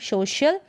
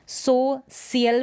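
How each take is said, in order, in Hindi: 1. बीच का व्यंजन sh ध्वनि है। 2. बीच का व्यंजन s ध्वनि है। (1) "श पढ़ेंगे" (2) "सो सियल भी नहीं पढ़ रहे हैं"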